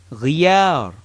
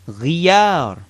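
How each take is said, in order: First: "Ghiyar" quick and firm with a gargled start; firm repeat. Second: "ghiyar" said slowly, drawn out; slow word demo. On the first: Teacher repeats the word for change firmly. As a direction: punch out "Ghiyar" once. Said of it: "As in ghiyar". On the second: Teacher slows the word for learners, drawn out. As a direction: stretch out "ghiyar". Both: Shown as a demonstration.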